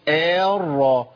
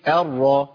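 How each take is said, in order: First: The first vowel is held long. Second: The first vowel is kept short. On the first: The speaker calls it wrong. "ما اقولش ارى" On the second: The speaker calls it right. "يبقى اقول ايه ارى على طول"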